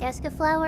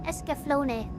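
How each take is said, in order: First: The word ends without a final vowel sound. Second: The word ends with an extra 'ah' vowel sound. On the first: The speaker calls it right. "you don't pronounce the E at the end?" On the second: The speaker calls it wrong. "I always pronounce it Escaflowne, which is weird because there isn't really an A after it"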